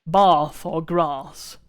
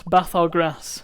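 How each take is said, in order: First: "Bath or grass" drawn out very slowly with a long ah as in father; very slow southern long ah in "Bath" and "grass". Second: "Bath or grass" slow, with a short flat a as in cat; northern flat a in "Bath" and "grass"; flat vowel bath. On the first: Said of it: "depending on how far south you go". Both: Shown as a demonstration.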